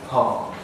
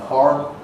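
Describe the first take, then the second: First: A long open vowel with no R sound. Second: A back-sounding vowel followed by an R sound. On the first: "In received pronunciation" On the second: "In American English"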